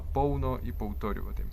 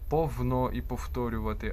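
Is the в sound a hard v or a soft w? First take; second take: soft w; hard v. First: The в is a soft w-like sound. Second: The в is a hard v or f sound. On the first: The speaker calls it right. "У нас треба вимовляти" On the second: The speaker calls it wrong. "Якщо ви кажете повно і повторювати через В або через Ф"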